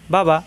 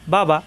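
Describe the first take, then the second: Both takes have the same delivery.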